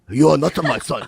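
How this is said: It is said in a put-on Japanese accent.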